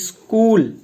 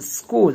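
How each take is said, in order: First: An extra vowel is heard before the s sound. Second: The word starts directly with the s sound. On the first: This is the common everyday way of saying it. The speaker calls it wrong. "बोलने में हम इस तरह से बोलते हैं" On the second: This matches how the word is written. The speaker calls it right. "ई silent होता है"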